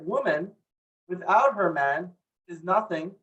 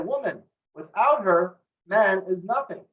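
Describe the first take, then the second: First: It runs on from 'woman', pausing after 'man'. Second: It pauses after 'woman' and again after 'her'. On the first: A woman is nothing without her man. "That's very insulting" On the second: A man is nothing without a woman. "But what if I say"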